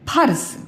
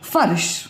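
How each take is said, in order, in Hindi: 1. शब्द की शुरुआत महाप्राण 'ph' ध्वनि से होती है। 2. शब्द की शुरुआत नरम 'f' ध्वनि से होती है। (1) "अगर ये फ के नीचे मैं बिंदी नहीं लगाती तो इसको क्या बोलते, फर्श, फ बोलते" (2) "और लग गई तो फर्श। मतलब इससे ध्वनि जो है ना मधुर आती है"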